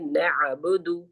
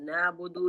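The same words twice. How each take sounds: First: The middle consonant is a throaty ain sound. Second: The middle consonant is a plain glottal catch. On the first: The speaker calls it right. "आइन नून को आइन से मिलाएंगे" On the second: The speaker calls it wrong. "नअबुदु नहीं कहेंगे"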